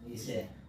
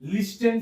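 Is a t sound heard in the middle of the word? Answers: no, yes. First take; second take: no; yes. First: No t sound is heard before the n. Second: A t sound is heard before the n. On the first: It is how the word is actually read. The speaker calls it right. "लिसन पढ़ते हैं इसको" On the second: It follows the written spelling. The speaker calls it wrong. "क्या लिखा हुआ है? लिस्टन"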